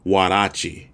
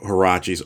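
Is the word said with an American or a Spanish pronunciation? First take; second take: Spanish; American. First: The word has a Mexican Spanish pronunciation. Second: The word has an American English pronunciation.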